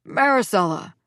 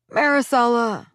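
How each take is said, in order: First: Said in the usual way. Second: Louder, higher pleading call of her name. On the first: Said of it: "I heard my father say". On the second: A narrator's reading. Father pleading with the mother over the phone. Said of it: "my father pleaded".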